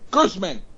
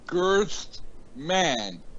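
First: The name is said quickly as one word. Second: The name is said slowly, syllable by syllable.

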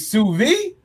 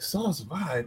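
First: It is said like 'soo veed', ending in d. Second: It is said like 'sauce vibe', ending in b. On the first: The term is said as a chef says it. The speaker calls it right. "you mean sous vide?" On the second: The term is misread from its spelling. The speaker calls it wrong. "What is sauce vibe?"

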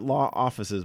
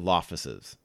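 First: The two words are said separately and fully. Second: The two words are run together as one word. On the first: "Not Law Offices" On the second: "is actually pronounced as Lawfices"

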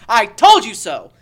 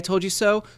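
First: It is shouted loudly as if through hands. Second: It is said at a normal speaking volume.

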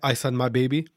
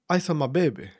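First: The title is said in a flat, plain style. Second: The title is said in a loose, urban style. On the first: The speaker calls it wrong. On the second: The speaker calls it right. "with an urban tone"

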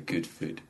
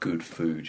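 First: The vowels are said in a Scottish accent. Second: The vowels are said in a standard accent. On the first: "she'll say good food" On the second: "rather than good food"

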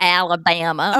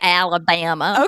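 First: It has a heavy, exaggerated Southern accent. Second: The same.

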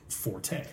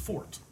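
First: The word is said as two syllables, 'for-tay'. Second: The word is said as one syllable, like 'fort'. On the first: This is the form most people use today. The speaker calls it wrong. "the accepted pronunciation, the modern pronunciation" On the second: This is the original form of the word. The speaker calls it right. "it's fort. Like fort courage"

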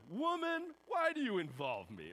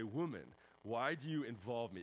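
First: It is said in a harsh, rude tone. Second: It is said in a respectful tone.

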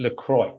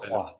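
First: The name is said with English-style pronunciation. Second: The name is said with French pronunciation. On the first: This is how the other person says it. The speaker calls it wrong. "you say LaCroix" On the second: This is how the speaker says it. The speaker calls it right. "I say LaCroix ... It's French"

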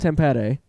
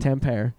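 First: The name is said the native Finnish way. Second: The name is said the American English way. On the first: "which is how you say that" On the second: "as the Americans say it"

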